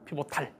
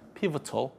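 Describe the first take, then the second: First: The last vowel is said as a full 'a'. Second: The last vowel is reduced and weak. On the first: "설명하려고 피보탈 이랬던 거고" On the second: "저 발음이 그렇게까지 너무 심하게 구리진 않아요"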